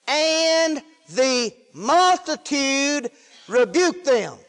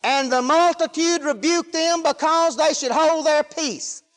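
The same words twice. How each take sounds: First: "And the multitude rebuked them" very slowly, each word stretched; drawn-out emphasis. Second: Preacher reading the verse in one raised, sustained run; flowing scripture reading. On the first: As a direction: pause and lean on "multitude" and "rebuked". Slow emphatic first reading of verse. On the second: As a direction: carry the verse straight through. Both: Real, not acted.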